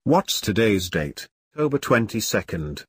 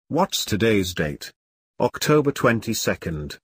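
No difference in how they are said.

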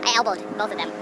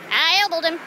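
First: Said in the usual way. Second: Hammed-up, higher-pitched Florida accent; exaggerated Florida accent on "elbowed". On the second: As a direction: lay on a comic Florida twang. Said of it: "My Florida accent's coming back".

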